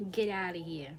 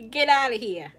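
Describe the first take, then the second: First: 1 New York accent. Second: "Get outta here" louder, punchier, "outta" stressed; louder New York accent. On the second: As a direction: throw it out like a Bronx local. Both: Shown as a demonstration. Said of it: "Do you guys hear it?".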